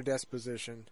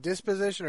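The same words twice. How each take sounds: First: "disposition" with a short E in the first syllable, "dess"; "disposition" opened on DESS, not DIS; des- with an E. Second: "disposition" with a short I in the first syllable, "diss"; "disposition" opened on DIS, not DESS. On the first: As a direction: say "disposition" starting like "desk" without the K. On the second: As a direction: say "disposition" starting like "this" with a D. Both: Shown as a demonstration. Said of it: "I believe it's with an I".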